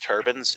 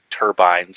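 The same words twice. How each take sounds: First: The word is pronounced with an American accent. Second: The word is pronounced with a non-American accent. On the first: The speaker calls it wrong. "I hate pronouncing it like Americans" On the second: The speaker calls it right. "is how they're actually pronounced"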